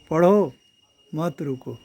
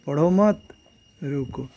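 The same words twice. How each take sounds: First: There is a pause after the first word. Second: There is a pause after the second word. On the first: Keep reading and do not stop. "Read don't stop." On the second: Do not read; stop. "Don't read stop."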